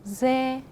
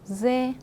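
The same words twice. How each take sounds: Both takes have the same delivery.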